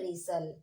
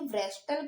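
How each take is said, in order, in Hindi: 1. यह r से शुरू होता है और इसमें t नहीं है। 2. यह w से शुरू होता है और इसमें t की आवाज़ है। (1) "डब्ल्यू साइलेंट है और यहाँ पे एक टी साइलेंट है" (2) "व्रेस्टल पढ़ेंगे क्या, बिल्कुल नहीं"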